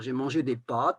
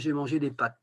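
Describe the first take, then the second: First: The vowel in pâtes is long. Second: The vowel in pâtes is short. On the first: This is the older, taught pronunciation. "moi j'avais appris à dire j'ai mangé des pâtes avec un A" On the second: This is how people commonly say it now. "maintenant les gens disent facilement"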